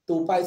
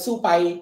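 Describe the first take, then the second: First: The word starts with a plain t sound. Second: The word starts with a ts sound. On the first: "dia tak boleh sebut tupai" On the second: "Dia tak ada tu eh"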